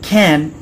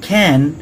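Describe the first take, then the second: First: The first consonant has a puff of air. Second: The same.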